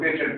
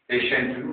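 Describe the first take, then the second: First: The middle consonant is a 't' sound. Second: The middle consonant is a 'sh' sound. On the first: The speaker calls it wrong. "वो हमें पेटेंट पढ़ाते रहे" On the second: The speaker calls it right. "पेशेंट मरीज"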